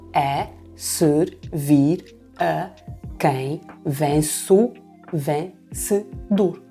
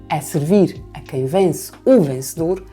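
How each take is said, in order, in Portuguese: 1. A linha é dividida em sílabas métricas separadas. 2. A linha é lida de forma fluida, como fala normal.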